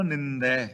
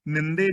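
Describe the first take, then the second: First: ਨਿੰਦੈ ending in an open 'ai'; correct nindai. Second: ਨਿੰਦੇ ending in a close 'e'; misread ninde. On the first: Preacher gives the right reading, ਨਿੰਦੈ with open final ai. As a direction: say ਨਿੰਦੈ as 'nin-dai', with a wide open final vowel like 'e' in 'bed'. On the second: Preacher warns readers off this reading, ਨਿੰਦੇ with close final e. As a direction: say ਨਿੰਦੇ as 'nin-day', with a narrow final vowel. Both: Shown as a demonstration. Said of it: "ਨਿੰਦੇ ਨਹੀਂ ਪੜ੍ਹਨਾ".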